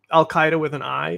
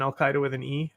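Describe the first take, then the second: First: "Al Qaeda" said KAI-da; "Qaeda" with an eye sound. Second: "Al Qaeda" said KAY-da; "Qaeda" with an ee-ay sound. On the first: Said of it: "is closer than Al Qaeda with an E". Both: Shown as a demonstration.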